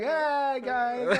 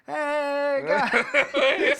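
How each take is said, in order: First: It is said in a light, casual voice. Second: It is said in a put-on Hulk voice.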